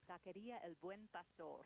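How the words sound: It is said with a Spanish accent.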